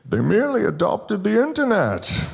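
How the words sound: It is said in a Bane impression voice.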